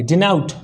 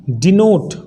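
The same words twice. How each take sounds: First: "Denote" said as "di-naut"; taught pronunciation. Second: "डिनोट" with a long "o" as in "note"; spelling-based pronunciation. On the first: Teacher answers how to read it, "Denote" as "di-naut". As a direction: open the vowel of "Denote" into an "au" glide. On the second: Teacher reads the new word before correcting it, "डिनोट" with an "o" vowel. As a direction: say "डिनोट", second syllable a plain "note". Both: Shown as a demonstration. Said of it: "अब इसको क्या पढ़ेंगे?".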